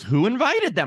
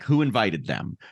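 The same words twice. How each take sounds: First: It is said with a questioning tune. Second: It is said flatly, as a firm statement. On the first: It genuinely asks who did it. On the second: It firmly states the point rather than asking.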